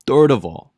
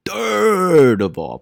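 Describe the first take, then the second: First: "Third" punched with a falling tune; playful emphasis on "Third". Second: High, hugely elongated "third", sliding down into "of all"; hammed-up drawn-out "third". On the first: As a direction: hit "Third" briskly, then drop through "of all". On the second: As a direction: stretch "third" out very long and high. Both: Shown as a demonstration. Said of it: "I love doing the third".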